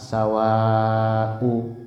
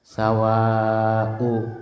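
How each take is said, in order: Both takes have the same delivery.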